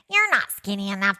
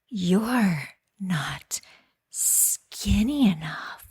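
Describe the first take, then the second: First: It is said in a put-on cartoon voice. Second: It is said in a put-on sexy voice. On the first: "or maybe you say it in a cartoon voice" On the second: "then you say it in the most sexy voice possible"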